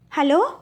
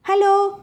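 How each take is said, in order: First: Said in the usual way. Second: Higher, pretending he can't hear; deliberate hello. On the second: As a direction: feign a bad line on purpose. (కావాలని వినిపించనట్లు హలో) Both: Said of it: "అన్నాడు కావాలని".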